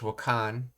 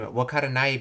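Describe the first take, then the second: First: The word is contracted to two syllables. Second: The word is said in full, four syllables. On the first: "wakaranai becomes wakan" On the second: "wakaranai becomes wakan"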